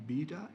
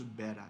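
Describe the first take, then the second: First: Beta as BEE-tuh, British way; long ee in beta; British pronunciation. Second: Beta as BEH-tuh, American way; short e in beta; American pronunciation. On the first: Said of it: "beta is British". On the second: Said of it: "the beta is just American pronunciations". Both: Shown as a demonstration.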